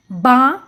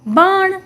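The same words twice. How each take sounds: First: बा and ण said apart; sounding out. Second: Said in the usual way. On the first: Shown as a demonstration. Teacher breaking a word up for children, sound by sound. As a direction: draw out बा, pause, then ण. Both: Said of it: "उच्चारण करके पढ़ लिया".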